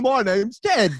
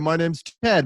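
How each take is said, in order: First: It is said in a thick, put-on accent. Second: It is said in a plain, unaccented voice. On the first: The person fakes a thick accent in public. "outside you're like" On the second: This is how the person really talks in private. "Inside in your room alone"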